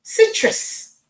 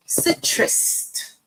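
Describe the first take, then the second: First: "Citrus" said without any T at the end, "sit-rus"; "Citrus" ending cleanly on the s; "Citrus" fixed, no final T; corrected pronunciation. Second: "Citrus" said with an extra T at the end, "citrust"; "Citrus" ending in a T sound; "Citrus" as "sit-rust"; wrong pronunciation. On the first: Shown as a demonstration. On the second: Real, not acted. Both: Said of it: "adding a T at the end".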